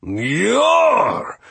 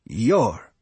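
First: "Yor" pushed high with an exaggerated umlaut vowel; name with umlaut. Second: Said in the usual way. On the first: Steward demonstrates his name "Yor", high exaggerated umlaut vowel. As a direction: correct them with a high, stretched "Yor". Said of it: "With an umlaut over the O".

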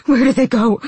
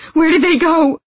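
First: Loud, raised anguished cry; distraught, lamenting shout; wailed question. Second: Very high, loud frantic cry; frenzied shout at the top of the range; screamed demand. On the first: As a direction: wail it in despair. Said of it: "he wailed". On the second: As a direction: scream it in desperation. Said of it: "he screamed". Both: A narrator's reading.

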